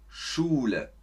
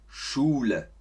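The two takes are said the same way.

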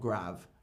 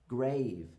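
First: The vowel is short, like in 'grab'. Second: The vowel is long, like in 'gave'. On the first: The speaker calls it wrong. "not grav" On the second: The speaker calls it right. "the E makes the vowel long for us"

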